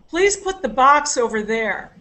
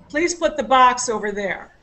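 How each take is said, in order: First: The stress is on the word box. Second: The same.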